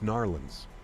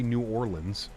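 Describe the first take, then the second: First: The name is squeezed into two quick syllables. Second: The name is said in full, syllable by syllable. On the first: The speaker calls it right. "It's Narlands" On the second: The speaker calls it wrong. "You can't say New Orleans"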